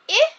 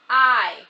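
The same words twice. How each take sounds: First: The vowel is said as its short sound. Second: The vowel is said as its letter name. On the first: "which says I for a short vowel" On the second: "the vowel will say its name"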